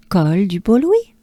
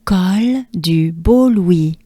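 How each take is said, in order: First: "Col du Beau Louis" said at normal speed; the name said in one smooth French flow. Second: Slow, careful "Col du Beau Louis"; slow whole-name French drill. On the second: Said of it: "Take a good breath with me". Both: Shown as a demonstration.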